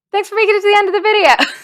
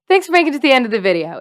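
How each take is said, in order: First: Higher, fast and louder, laughing; laughing outro. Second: Said in the usual way. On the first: Real, not acted. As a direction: rush it out through a laugh.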